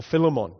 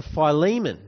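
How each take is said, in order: First: "Philemon" said FILL-uh-mon; "Philemon" with a short i and clear final -mon; alternative pronunciation. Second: "Philemon" said fy-LEE-mun; "Philemon" with a long i, then LEE; long-vowel pronunciation. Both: Shown as a demonstration. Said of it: "however you want to say it".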